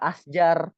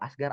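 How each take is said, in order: First: The middle consonant is a j sound. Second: The middle consonant is a hard g sound. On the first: This is the standard Arabic form meaning trees. "Ternyata Asjar" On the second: This is how Egyptians say it in daily speech. "huruf jim jadi huruf go ... dia bilangnya Asgar"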